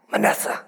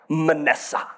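First: Whispered name. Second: Said in the usual way. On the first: Shown as a demonstration. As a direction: breathe the name with no voice. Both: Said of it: "Just rolls off the tongue".

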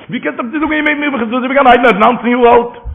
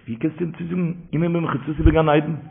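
First: High-pitched, emphatic disbelief; incredulous question. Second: Soft, understated question; quiet question. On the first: Preacher repeating the question about the young grandson, high incredulous protest. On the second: Preacher quoting a question on the story, hushed. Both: Retold or imitated.

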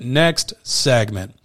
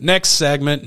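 First: Next segment, very slow and stretched; drawn-out announcement. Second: Next segment pushed louder; louder call. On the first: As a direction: drag the words out playfully. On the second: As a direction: call it out like a host. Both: Real, not acted. Repeating the segment cue.

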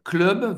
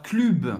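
First: "Club" as klœb, open vowel like English; correct French vowel. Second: "club" as klüb, tight puckered u; wrong French u. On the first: Teacher modelling the holiday brand's name, correct vowel. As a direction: say "Club" without puckering into French u. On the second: Teacher showing learners what to avoid, wrong French u. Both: Shown as a demonstration. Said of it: "você não vai falar club".

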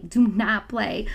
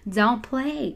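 First: Slow down and lean on Do not play; emphatic slow warning. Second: Said in the usual way. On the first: Shown as a demonstration. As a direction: Do not play spaced out slowly, each word hit. Repeating warning, second more emphatic.

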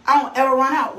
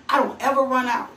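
First: Louder, pressing the point home; emphatic repeat. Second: Said in the usual way. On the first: Shown as a demonstration. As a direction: drive it in on the repeat. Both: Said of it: "repeats it for emphasis".

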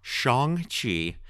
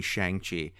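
First: Shang-Chi with an open "shahng" vowel, slower; corrected pronunciation. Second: Shang-Chi with a flat English "shang" as in "hang"; anglicised wrong way. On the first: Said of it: "Kevin Feige comes up and he just put me to shame". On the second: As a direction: say Shang-Chi like a clueless Westerner. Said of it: "I've been saying it the most Caucasian way possible". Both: Shown as a demonstration.

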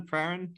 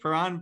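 First: Paran stressed on the first syllable, like PARR-un; alternative pronunciation. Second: Paran with a long "ah", stressed on the second syllable; unsure pronunciation. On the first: Host offering guest another option, unsure PARR-un pronunciation. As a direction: try Paran as PARR-un, asking. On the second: Host checking the club's name with guest, unsure puh-RAHN pronunciation. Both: Shown as a demonstration. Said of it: "how do you say it".

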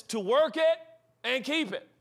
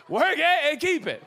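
First: Said in the usual way. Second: Loud, high mock-pulpit slogan; preacher parody. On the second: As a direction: hammer it out like a revivalist. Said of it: "I love preachers".

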